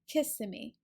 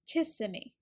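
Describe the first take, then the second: First: The stress is on the first syllable. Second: The same.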